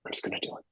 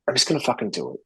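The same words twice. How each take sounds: First: "I'm just gonna do it" whispered, no voice; whispering a resolution to himself; whispered resolve. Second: Said in the usual way. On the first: Retold or imitated. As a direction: whisper it to yourself like a private vow. Retold self-talk, decision.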